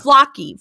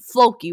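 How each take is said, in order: First: Flocky with a short "ah" vowel, FLAH-kee. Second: Floki with a long "oh" vowel, FLOH-kee. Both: Shown as a demonstration.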